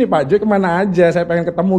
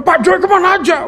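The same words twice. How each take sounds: First: Said in the usual way. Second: "Pak Joy kemana aja?" high and yearning, kemana stretched with a fall; emotional reading. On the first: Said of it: "Kalau gua bacanya gini". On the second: Retold or imitated. Husband imitating how his wife read the message, high and yearning. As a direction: mimic a wistful, longing question. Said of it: "Lu bacanya".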